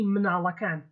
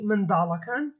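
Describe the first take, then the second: First: The d sound is dropped, Slemani style. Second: It has a d sound, standard Kurdish.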